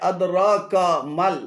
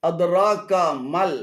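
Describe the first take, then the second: Both takes have the same delivery.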